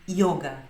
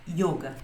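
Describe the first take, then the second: The two takes are said the same way.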